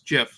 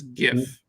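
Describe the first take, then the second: First: The word starts with a soft J sound. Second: The word starts with a hard G sound. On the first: This is how its creator says it. "like the peanut butter" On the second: This is how most people say it. "common nomenclature has renamed it as"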